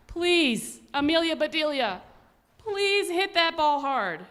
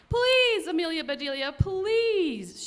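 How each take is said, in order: First: Worried plea. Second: Higher, louder begging shout; shouted plea. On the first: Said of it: "The Grizzlies were worried". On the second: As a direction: beg her at the top of your voice. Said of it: "shouted the Grizzlies". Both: Acted.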